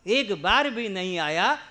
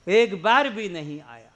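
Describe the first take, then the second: First: "बार" lifted in a rising, questioning tune; an echo that climbs at "बार". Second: A firm falling tune on "बार"; stating it flatly as a rebuke; emphatic. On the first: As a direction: let "बार" rise as if in disbelief. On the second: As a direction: press down on "बार" and let it drop. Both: Shown as a demonstration.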